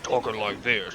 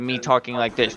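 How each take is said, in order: First: It is said in a disguised, put-on voice. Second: It is said in the speaker's normal voice.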